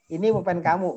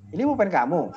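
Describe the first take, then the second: First: The voice falls at the end like a statement. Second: The voice rises at the end like a question. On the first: It states that the pen is yours. "biasa tuh" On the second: It asks whether the pen is yours. "itu nanya"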